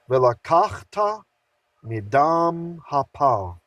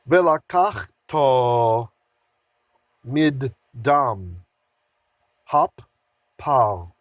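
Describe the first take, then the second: First: It is read smoothly and fluidly. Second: It is read haltingly, word by word.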